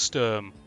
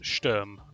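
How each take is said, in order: First: The name is said with English pronunciation. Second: The name is said with German pronunciation.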